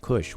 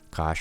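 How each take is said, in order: First: The vowel sounds like the 'u' in push. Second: The vowel sounds like the 'a' in cash. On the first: "most people pronounce this as Kush" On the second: "We have Kash"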